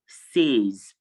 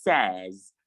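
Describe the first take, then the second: First: Says as SAYZ; long AY vowel in says; wrong pronunciation. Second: Says as SEZ; short E in says; correct pronunciation. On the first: Teacher showing students what to avoid, says as SAYZ. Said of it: "not says". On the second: Teacher correcting students, says as SEZ. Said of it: "it is". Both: Shown as a demonstration.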